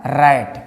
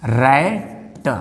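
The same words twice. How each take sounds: First: रैट as one joined word; sounds blended. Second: रैट broken into 'rai', a pause, then 't'; sounds split apart. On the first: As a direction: blend 'ra', 'ai', 't' into रैट. (रैट को जोड़कर एक शब्द में) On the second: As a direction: leave a gap before the final 't' of रैट. (रैट को तोड़कर, रै... ट) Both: Shown as a demonstration. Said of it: "जब इसको आप जोड़ेंगे".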